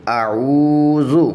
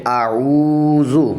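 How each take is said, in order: The two takes are said the same way.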